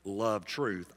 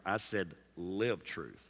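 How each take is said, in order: First: Said in the usual way. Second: "live" slow and weighted; slow firm emphasis on "live"; stress on live. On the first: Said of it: "I didn't say". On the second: Shown as a demonstration. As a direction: lean on "live" in "live truth". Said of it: "I didn't say love truth".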